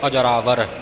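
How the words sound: The word is said joined as one unit. The speaker calls it right. "ਸੰਬੰਧਕ ਨੂੰ ਜੋੜ ਕੇ ਅਜਰਾਵਰ"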